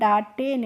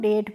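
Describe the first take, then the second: First: It is said as two syllables, da-te. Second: It is said as one syllable, dayt. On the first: The speaker calls it wrong. "डाटे नहीं पढ़ा" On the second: The speaker calls it right. "इसको डेट पढ़ लिया"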